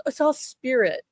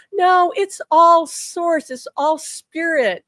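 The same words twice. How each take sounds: First: Said in the usual way. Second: High, loud and slow, leaning on all; drawn-out insistence on "all", pitched up and louder; emphatic insistence. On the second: Retold or imitated. Husband correcting his wife, high, loud and slow on "all".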